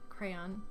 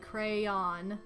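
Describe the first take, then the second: First: It is said as one syllable rhyming with man. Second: It is said as two separate syllables. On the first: "With one syllable rhymes with man" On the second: "Two syllables"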